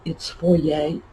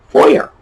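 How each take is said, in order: First: The word is said the French way. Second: The word is said the plain American way. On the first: The speaker calls it wrong. "people will get all Frenchy and say" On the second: The speaker calls it right. "spelled exactly as it sounds"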